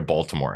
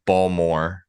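First: Said in the usual way. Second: Balmore, slow, dropping the T; drawn-out Balmore with the T swallowed; local Baltimore pronunciation. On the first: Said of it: "They don't have the T in it". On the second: Retold or imitated. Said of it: "People say".

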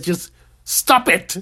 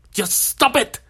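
First: Slow, calm, matter-of-fact delivery; deadpan therapist. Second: Mock shout. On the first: Retold or imitated. Therapist gives his patient the cure, slow and deadpan. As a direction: lay down the verdict slowly and calmly. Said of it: "And he says". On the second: Therapist loses patience with the patient, mock shouting. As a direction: shout the order at him, hammed up.

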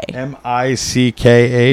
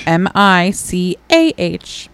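First: Slow letter-by-letter query; spelling back a guess. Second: Slow, deliberate letter-by-letter; corrective spelling. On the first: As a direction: read the letters back slowly, unsure. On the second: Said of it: "No, M I C A H". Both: Shown as a demonstration.

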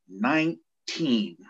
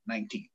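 First: Put-on NINE-TEEN stretched very slowly, falling; drawn-out echo. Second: Meek answer. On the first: Captain echoes the young recruit's age, drawn out for effect. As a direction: repeat it slowly, letting each syllable sink in. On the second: Retold or imitated. Young recruit answers captain.

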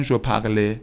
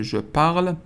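First: "parle" wrongly ending in an ay sound, par-LAY; mistaken final é. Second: "parle" as one syllable, stopping on the L; silent final e. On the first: Teacher imitates students' common mistake, "parle" said as parlé. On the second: Teacher corrects the students' mistake, "parle" with silent ending. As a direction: drop the last vowel of "parle". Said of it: "هیچ کدوم آش خونده نمیشه". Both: Shown as a demonstration.

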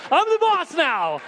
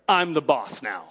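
First: Very high, slow, drawn-out declaration; retold line turned into a soaring proclamation; triumphant preaching cry. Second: Said in the usual way. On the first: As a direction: cry it out like a preacher at full pitch. Preacher repeats it at full force.

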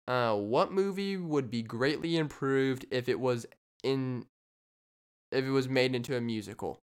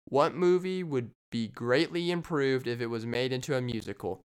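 First: Quiz question read. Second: Said in the usual way. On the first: Acted. Podcaster reads a listener question as a quiz host. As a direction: read it out like a game-show clue. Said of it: "Jeopardy style". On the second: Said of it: "I'm gonna repeat that question".

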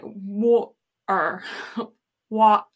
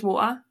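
First: "water" split in two with a gap; American attempt at English. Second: "water" run together with the T dropped; English glottal T. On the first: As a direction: put a clear break inside "water". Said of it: "when Americans say it". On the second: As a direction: say "water" in one go, no gap. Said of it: "instead of just water". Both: Shown as a demonstration.

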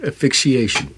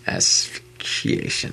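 First: "Asphyxiation" as uh-fik-shee-ation, no opening "as"; mispronounced word. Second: "Asphyxiation" very slowly, opening with a stressed "as"; pronunciation correction. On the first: Real, not acted. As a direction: drop the first s in "Asphyxiation". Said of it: "You can't even do it right". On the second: Shown as a demonstration. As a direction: spell out the sound as-fik-shee-ation in "Asphyxiation", drawn out. Slow correction of co-host's pronunciation.

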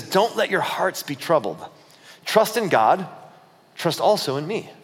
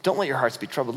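First: Slow, measured scripture reading; measured words of a teacher; scripture quote. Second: Lower, softer, casual reassurance; low-key word to the guys; casual paraphrase. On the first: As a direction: deliver it as solemn teaching, with pauses. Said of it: "this is Jesus talking to them". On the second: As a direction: say it quicker and offhand, as to friends. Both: Acted.

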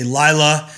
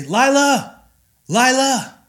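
First: Firm, slightly louder scolding of the name. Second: Much higher, sing-song call across the yard. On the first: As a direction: say her name like she's in trouble. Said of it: "If she's done something naughty". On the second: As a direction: call her name out as if searching for her. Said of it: "if I'm looking for her". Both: Shown as a demonstration.

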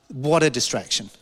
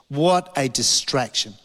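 First: Said in the usual way. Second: "What a distraction" slow, word by word; weighty, deliberate "What a distraction"; slow emphasis. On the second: Retold or imitated. Same words repeated slowly for emphasis.

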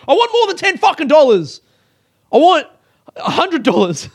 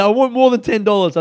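First: High, loud outburst; mock furious shouting at customer service; exaggerated angry demand. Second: Raised, louder, insistent protest; aggrieved but controlled pushback; insistent complaint. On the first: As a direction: yell it as an over-the-top demand. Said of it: "I didn't say that". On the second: Retold or imitated. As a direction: press the demand firmly without screaming. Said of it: "but I said".

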